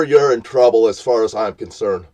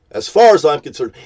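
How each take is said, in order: First: Said in the usual way. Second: Louder repeat. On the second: Real, not acted.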